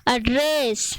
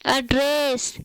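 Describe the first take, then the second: No difference in how they are said.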